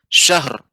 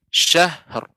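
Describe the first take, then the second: First: The final r is cut off quickly. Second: The final r is released and slightly lengthened. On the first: The speaker calls it wrong. "tidak langsung cepat Ibu, tidak langsung syahr" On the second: The speaker calls it right. "akan tapi syahr"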